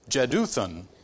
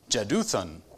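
First: The name begins with a J sound. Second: The same.

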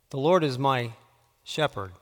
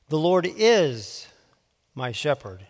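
First: The emphasis falls on the word 'shepherd'. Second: The emphasis falls on the word 'is'. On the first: "putting the emphasis on a different word each time" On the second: "putting the emphasis on a different word each time"

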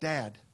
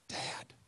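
First: The word is said somewhat louder. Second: The word is said softly and quietly. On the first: "she has to say a little bit louder" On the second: "so I always start off with"

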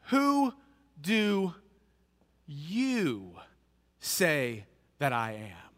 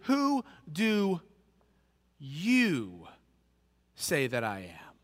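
The two takes are said the same way.

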